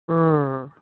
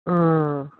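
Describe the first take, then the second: The two takes are said the same way.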